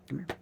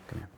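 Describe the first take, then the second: First: It is said in a baby-talk voice. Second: It is said in a firm voice.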